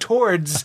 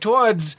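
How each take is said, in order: First: It is said with a standard accent. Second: It is said with a Boston accent. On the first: This is the usual way to say it. "instead of towards" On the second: This is how a man from Boston says it. "Every time he says towards"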